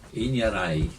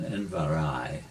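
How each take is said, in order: First: The final vowel rhymes with 'height'. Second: The final vowel does not rhyme with 'height'. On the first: The speaker calls it right. "it's E I as in height" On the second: The speaker calls it wrong. "it's sometimes uh, mispronounced as"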